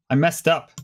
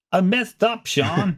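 First: Said in the usual way. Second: Higher-pitched repeat, hammed up; playful dismayed admission. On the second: Real, not acted. Host admits the wrong list to co-host, high mock dismay. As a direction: confess it again in a high, plaintive voice.

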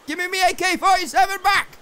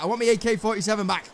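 First: High-pitched demand; indignant yell. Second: Said in the usual way. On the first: Real, not acted. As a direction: yell it like you've been robbed. Demand repeated louder, gun lost.

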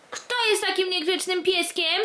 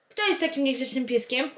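First: Higher mock-scolding coo. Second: Said in the usual way. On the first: Real, not acted. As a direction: scold the puppy playfully. Scolding dog in baby talk. (wyżej, żartobliwe karcenie)

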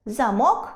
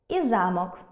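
First: Замок as заМОК; замок with final-syllable stress; stress on last syllable. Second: Замок as ЗАмок; замок with first-syllable stress. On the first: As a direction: punch МОК in замок, rising. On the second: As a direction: lean on ЗА in замок, falling. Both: Shown as a demonstration. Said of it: "зміна наголосу змінює значення слова".

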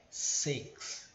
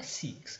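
First: Whispered six with a short e-like vowel; correct six. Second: Six with a tense i vowel; wrong six. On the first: Teacher giving the right six, whispered. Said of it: "é six". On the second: Teacher showing wrong six again. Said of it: "Não é six". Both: Shown as a demonstration.

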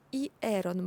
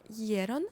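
First: «І ерон» split into і, then ерон; spelled-out pronunciation. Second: «єрон» with і and е merged into a gliding є; blended pronunciation. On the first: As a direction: say «І ерон» as written, і apart from ерон. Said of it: "ми пишемо". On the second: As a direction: say «єрон» as one run, opening on a y-glide. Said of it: "вимовляємо як". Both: Shown as a demonstration.

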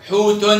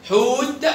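First: حوت said as "hootun"; damma tanween. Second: High حوت stopped on a released t; sukun ending. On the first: Teacher repeats for pupils, حوت ending in -un. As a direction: add -un to the end of حوت. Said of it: "في الضمة أو في التنوين". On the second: Teacher repeats for pupils, حوت ending on bare t. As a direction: say حوت with no final vowel. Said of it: "وفي السكون يبقى تاء". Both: Shown as a demonstration.

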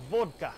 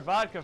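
First: "Vodka" as a loud German VOHD-ka; heavy German-accented "Vodka"; mock German accent. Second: Said in the usual way. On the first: Shown as a demonstration. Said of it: "it's just like". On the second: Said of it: "I have to say the word vodka first".

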